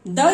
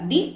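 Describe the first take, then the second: First: The vowel is short and weak, like 'thuh'. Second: The vowel is long and full, like 'thee'. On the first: The next word starts with a consonant sound. "क्योंकि consonant का sound आ रहा है" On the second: The next word starts with a vowel sound. "T H E को दी पढ़ा जाएगा"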